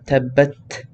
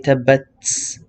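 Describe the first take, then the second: First: The word ends in a t sound. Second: The word ends in an s sound. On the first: The speaker calls it right. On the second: The speaker calls it wrong.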